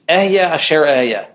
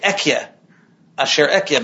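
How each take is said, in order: First: The first word has an h sound inside. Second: The first word has a k sound inside. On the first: The divine name is said directly. "there are some who won't pronounce it that way" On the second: The divine name is avoided out of reverence. "So they say Ekyeh asher ehyeh"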